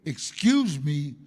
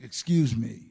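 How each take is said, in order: First: Slow, loud menacing "Excuse me"; threatening. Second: A plain, polite "Excuse me". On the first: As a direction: drag out "Excuse me" as a warning. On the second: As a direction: say "Excuse me" simply and courteously. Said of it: "I mean polite like". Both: Shown as a demonstration.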